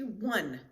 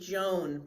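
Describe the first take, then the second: First: The name begins with a W-like sound. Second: The name begins with a J sound. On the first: The speaker calls it right. "the J is silent" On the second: The speaker calls it wrong. "Americans would pronounce that first name Joan"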